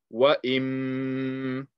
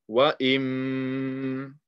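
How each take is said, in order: First: The m is held with a long nasal hum. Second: The m is held with a long nasal hum.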